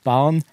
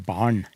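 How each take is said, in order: First: "barn" with separate r and n sounds; non-retroflex pronunciation. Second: "barn" with r and n merged into one retroflex n; retroflex pronunciation. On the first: Linguist shows the unmerged form, "barn" with r and n apart. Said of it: "kan bli til barn". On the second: Linguist shows how others talk, "barn" with a retroflex n. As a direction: curl the n of "barn", no separate r. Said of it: "Den lyden som da blir laget". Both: Shown as a demonstration.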